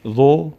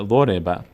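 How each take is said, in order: First: ضرب sounded out in separate syllables, high and loud at the start; teacher's letter-by-letter reading of ضرب with pauses; one by one. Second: ضرب said as one whole word, syllables linked; ضرب with no gaps between syllables; joined up. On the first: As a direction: break ضرب into spaced single syllables. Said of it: "اما یکی یکی بخونید". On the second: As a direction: read ضرب in one connected go. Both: Shown as a demonstration.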